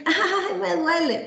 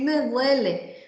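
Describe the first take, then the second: First: High, put-on whimper of a pretending child; child faking pain. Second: Said in the usual way. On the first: Child faking pain to the doctor, high theatrical whimper. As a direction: ham up a fake little "ay, me duele". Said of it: "está fingiendo". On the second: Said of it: "Ellos pueden decir".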